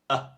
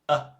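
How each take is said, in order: First: The vowel is said short and toneless. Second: The same.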